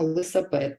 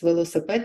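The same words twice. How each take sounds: First: «лисапед» with the first syllable dropped and и, а swapped in; «лисапед» as kids say it; childish mispronunciation. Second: Said in the usual way. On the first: Shown as a demonstration. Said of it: "ми чуємо". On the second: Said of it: "або замість".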